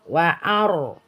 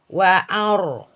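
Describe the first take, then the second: No difference in how they are said.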